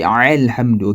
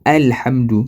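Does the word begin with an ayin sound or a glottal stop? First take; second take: ayin sound; glottal stop. First: It begins with a throaty ayin sound. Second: It begins with a light glottal stop. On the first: The speaker calls it wrong. "you don't say Alhamdu, okay, it is wrong" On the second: The speaker calls it right. "because it is Hamza, it is Alif"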